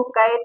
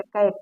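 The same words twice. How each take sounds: First: "कैट" with a drawn long vowel instead of the short A; wrong vowel. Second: "कैट" with a short, open A sound; short vowel. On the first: Teacher showing how not to say it, "कैट" with wrong long vowel. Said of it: "इसको कैट नहीं कहते". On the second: Teacher modelling the short-vowel rule, "कैट" with short A. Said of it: "इसका short sound हो गया". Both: Shown as a demonstration.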